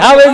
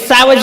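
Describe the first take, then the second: First: The word begins with an h sound. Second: The word begins with an s sound. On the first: This is the local village way of saying it. The speaker calls it right. "હાવેજ એ હાવેજ જ હોય" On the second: This is the educated city way of saying it. The speaker calls it wrong. "એને સાવજ ન કહેવાય"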